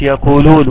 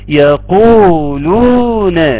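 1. تُقصَر المدود. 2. تُمَدّ المدود مدًّا كاملًا. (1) "مش يقولون" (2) "عاوز نظهر المدود"

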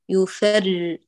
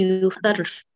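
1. الراء مجهورة، بدون هواء يخرج. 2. الراء مهموسة، يخرج معها الهواء. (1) "بدون همس" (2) "لا نقول يفرّ، لا تمرري هواء"

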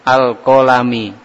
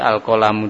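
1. Kata ini diakhiri dengan vokal i. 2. Kata ini diakhiri dengan vokal u. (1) "Jangan membaca awal kali pertama itu pakai kasroh" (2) "Dibaca dhommah"

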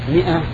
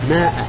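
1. الحركة الأولى هي صوت 'i'. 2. الحركة الأولى هي صوت 'a' طويل. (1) "والميم مكسورة" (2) "الميم مكسورة وانت تقول ماء"

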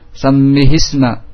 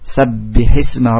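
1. Bunyi b kabur dan menyatu dengan m. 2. Bunyi b jelas dan terdengar ganda.

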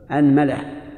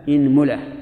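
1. تبدأ الكلمة بالحركة a. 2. تبدأ الكلمة بالحركة i. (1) "فتح الهمزة" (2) "اكسر الهمزة"

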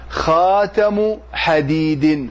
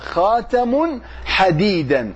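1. الكلمة الأولى غير منوّنة، والثانية تنتهي بـ -in. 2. الكلمة الأولى منوّنة، والثانية تنتهي بـ -an. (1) "مضاف ومضاف إليه" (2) "تنصب حديدا وتنون خاتم"

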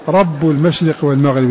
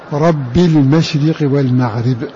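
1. تنتهي الكلمة الأولى بحركة الضمة (u). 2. تنتهي الكلمة الأولى بحركة الكسرة (i).

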